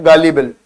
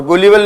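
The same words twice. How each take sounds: First: गालिबल said with an open a, gaa-li-bal; the right way, गालिबल as gaa-libal; गालिबल with aa in the first syllable; correct pronunciation. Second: गुलिबल said with an oo sound, goo-li-bal; the wrong way, गुलिबल as goo-libal; गुलिबल with u in the first syllable; wrong pronunciation. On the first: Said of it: "इसकी pronunciation है गालिबल". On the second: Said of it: "गुलिबल नहीं बोलते". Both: Shown as a demonstration.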